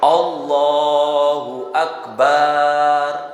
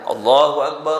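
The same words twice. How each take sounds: First: The vowel after the b is drawn out long. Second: The vowel after the b is kept short. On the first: The speaker calls it wrong. "ba-nya dibaca panjang" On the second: The speaker calls it right. "Jadi baknya jangan panjang"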